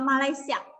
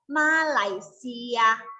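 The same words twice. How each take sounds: First: It is said plainly, without a special accent. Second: It is said with a distinct accent. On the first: The speaker calls it wrong. "Jangan bilang Malaysia" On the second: The speaker calls it right. "Ada logatnya ya. Pelafalannya beda"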